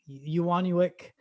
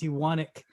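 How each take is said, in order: First: The name has an extra 'oo' vowel inside. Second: The name has no extra 'oo' vowel inside. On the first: The speaker calls it wrong. "So I get like" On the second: The speaker calls it right. "You don't say it. It's Ewanic"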